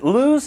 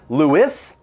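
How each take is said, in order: First: The name does not sound like Louis. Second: The name sounds like Louis. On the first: The speaker calls it wrong. "if you've seen this name before and you've pronounced it Lewes" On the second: The speaker calls it right. "It is pronounced Lewis, like if you were to say Saint Louis"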